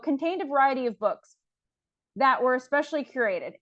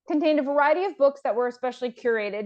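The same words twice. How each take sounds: First: There is a pause before "that". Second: It flows without a pause before "that".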